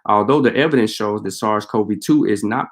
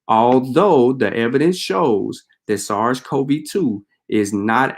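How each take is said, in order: First: It is read at a normal reading pace. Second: It is read slowly and deliberately.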